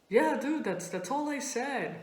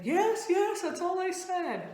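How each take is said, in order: First: Mildly unsure, stumbling insistence; hesitant friend. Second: Much higher, hurried-to-reassure voice; scared friend insisting. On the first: Friend answering after a long pause, hesitant. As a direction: answer as if after careful thought. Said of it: "a five-second pause to think about it". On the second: Friend denying she said more, high and insistent. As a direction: insist defensively, pitched high. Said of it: "she was scared". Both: Retold or imitated.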